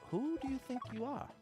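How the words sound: It is asked in a curious, questioning way.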